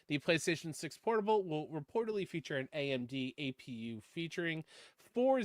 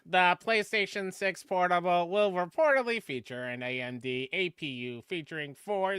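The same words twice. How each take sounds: First: It is read in his normal voice. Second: It is read in a special put-on voice.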